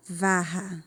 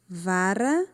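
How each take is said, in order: First: "varra" with an H-like R, VA-ha, falling; double guttural R. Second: "Vara" with a tongue-tap R, ending on a rise; single tapped R. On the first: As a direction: keep the tongue down on the RR of "varra". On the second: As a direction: flick the tongue once on the R of "Vara". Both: Shown as a demonstration. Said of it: "Como fica diferente".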